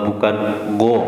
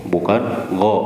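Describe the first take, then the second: The two takes are said the same way.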